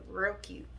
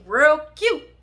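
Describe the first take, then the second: First: Said in the usual way. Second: High, loud, punched-up "real cute"; mock-cute exclamation. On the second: Storyteller walking up on the couple, mock-cute exclamation. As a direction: squeal it out sarcastically, loud and high.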